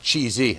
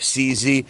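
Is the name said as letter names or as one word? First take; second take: one word; letter names. First: It is said as one word, cheesy. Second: It is said as two letter names. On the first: This is how a person from Berlin says it. "a guy from Berlin ... said that it was pronounced cheesy" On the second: This is how people in the States say it. "Here in the States, we call it C Z"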